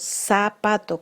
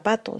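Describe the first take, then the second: First: The first consonant is an s sound. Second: The first consonant is a th sound.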